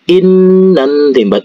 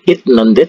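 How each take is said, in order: First: The first syllable ends in an n sound. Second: The first syllable ends in a t sound. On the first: The speaker calls it right. "tapi in nende" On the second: The speaker calls it wrong. "bukan it nende"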